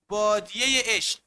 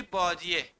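First: بادیهٔ عشق with a clear kasre ending on بادیهٔ; ezafe sounded. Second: Said in the usual way. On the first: Shown as a demonstration. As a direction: link بادیهٔ to عشق with an audible e. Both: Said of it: "اول کسره گذاری بکن".

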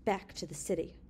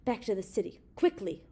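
First: Understated cold command; emotionless, level order. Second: Cold order with a firmer last word; understated icy urgency. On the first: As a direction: give the order coldly, without emotion. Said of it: "Evans' voice was cold". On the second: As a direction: coldly repeat the command, pressing the final word. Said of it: "Words again issued from between Evans' pale, cold lips". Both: A narrator's reading.

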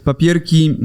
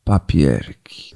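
First: Said in the usual way. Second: Very low, drawn-out papierki; deep slow voice. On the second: Pretend. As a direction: drop the voice way down, slowly. Jingle echo of show name.

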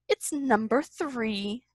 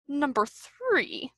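First: Softer, drawn-out happy recognition. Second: Slow, soft, frowning grumble; displeased mutter. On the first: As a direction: savour the happy find slowly. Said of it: "Pooh cried happily". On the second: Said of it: "muttered Owl, frowning". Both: A narrator's reading.

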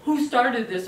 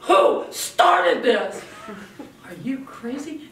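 First: A hint of a furious Godzilla parent; lightly voiced angry demand; mild mock furious yell. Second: Loud, slow, rasped-out mock demand; mock angry demand. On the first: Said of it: "Godzilla comes in and is furious and yells". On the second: Shown as a demonstration. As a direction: storm in as the wrong kind of parent. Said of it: "you run in the room and you go".

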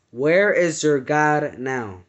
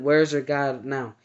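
First: Slow, lightly deepened demon voice; a hint of a menacing demon, slow; deep voice. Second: Said in the usual way. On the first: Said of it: "he said in a very deep voice". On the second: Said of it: "when he said".

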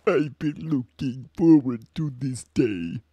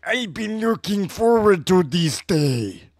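First: Andross voice. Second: Put-on slow Hispanic accent villain; drawn-out Hispanic accent. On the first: Acted. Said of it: "this is my Andross". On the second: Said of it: "Hispanic accent".

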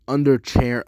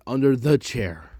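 First: Said in the usual way. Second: "the" set apart before "chair"; correcting with THE. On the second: Shown as a demonstration. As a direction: mark the word "the" in "under the chair". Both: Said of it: "not under chair, under the chair".

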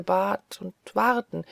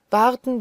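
First: Said in the usual way. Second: "warten" repeated much higher and louder; stressed repeat. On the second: Acted. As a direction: hit the second "warten" hard and high. ("warten" betont, höher und lauter)

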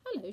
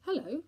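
First: Lightly honeyed hello; a touch of honey in the greeting. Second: Loud, higher, awkward hello; mildly gruff greeting; gruff with embarrassment. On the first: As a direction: answer sweetly. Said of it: "in a voice like honey". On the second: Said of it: "in a voice made gruff with embarrassment". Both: A narrator's reading.

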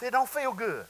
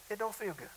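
First: Said in the usual way. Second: Much softer, knowing aside; quiet repeat. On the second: Shown as a demonstration. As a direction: drop it down almost to a murmur.

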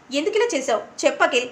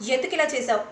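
First: ఇలా pressed as the repeated question rises; a touch of anger, demanding an answer; mild anger. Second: Said in the usual way. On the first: Acted. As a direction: let the anger build on the repeat. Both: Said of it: "అని కోపంగా అంటూ ఉంటే".

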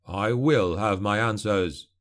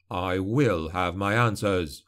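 First: Slow, measured threat; stern warning. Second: Lower, slow and icy; cold repeat. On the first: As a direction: warn him slowly, each word weighed. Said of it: "he warned". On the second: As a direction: say it again, colder. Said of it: "he repeated coldly". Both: A narrator's reading.

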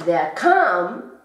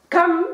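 First: «der kam» con la A alargada; A larga. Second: «Kam» con la A muy corta y aguda. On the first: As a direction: estira la A de «kam». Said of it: "por eso la A es larga". («kam» con vocal larga) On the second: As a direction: suelta «Kam» corto y mucho más alto. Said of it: "con la A muy corta". («Kam» con vocal breve) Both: Shown as a demonstration.

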